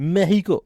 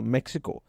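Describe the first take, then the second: First: Mexico is said with a Spanish pronunciation. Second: Mexico is said with an English pronunciation.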